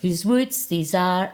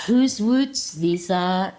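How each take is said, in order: First: Slow, lilting 'whose woods these are'; sing-song poetry voice. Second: Slow, drawn-out 'Whose woods these are'; sing-song poetry voice. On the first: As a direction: lean into the recitation lilt. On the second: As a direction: overdo the recitation voice. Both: Shown as a demonstration. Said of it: "with a wee bit of the poetry voice".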